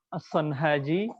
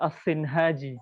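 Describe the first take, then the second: First: The vowel after the first S is 'a'. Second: The vowel after the first S is 'i'. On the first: "bisa dibaca As-Sanhaji" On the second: "Atau bisa juga di kasroh sotnya"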